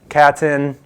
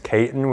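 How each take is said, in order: First: The first vowel is a short A sound. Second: The first vowel is a long A sound. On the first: The speaker calls it wrong. "I usually always hear" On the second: The speaker calls it right. "with a long A"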